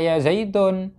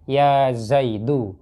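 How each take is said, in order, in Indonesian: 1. Nama itu diakhiri dengan bunyi n yang ditambahkan. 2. Nama itu diakhiri dengan vokal u biasa. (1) "jangan dibaca ya Zaidun. Salah" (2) "Yang betul adalah ya Zaidu"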